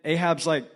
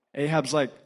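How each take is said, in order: Both takes have the same delivery.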